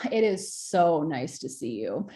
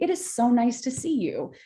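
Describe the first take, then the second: First: It is said sarcastically, with scoffing. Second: It is said sincerely and warmly.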